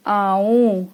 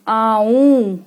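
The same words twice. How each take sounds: First: Said in the usual way. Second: आऊं louder, nasal ending stressed; emphasized nasal. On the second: Shown as a demonstration. Teacher sorting words, louder nasal आऊं. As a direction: push the nasal end of आऊं. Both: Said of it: "आऊं पे चंद्र बिंदु है".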